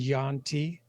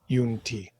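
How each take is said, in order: First: The first vowel sounds like 'ya'. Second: The first vowel sounds like 'yu'. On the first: The speaker calls it wrong. "I purposely mispronounced your race to Yanti" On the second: The speaker calls it right. "versus Yunti"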